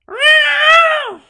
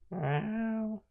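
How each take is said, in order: First: It is yelled at full volume. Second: It is said softly and quietly.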